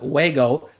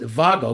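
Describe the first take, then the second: First: The name is said in plain English fashion. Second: The name is said in German fashion. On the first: "I call them Wago connectors" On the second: "Germans pronounce it Vago"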